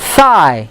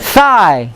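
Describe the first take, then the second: Both takes have the same delivery.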